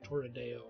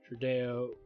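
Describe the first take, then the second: First: The name starts with two syllables, Torre. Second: The name starts with one short syllable, Tru. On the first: The speaker calls it right. "it's like Torredeo or something like that" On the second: The speaker calls it wrong. "I keep saying it wrong"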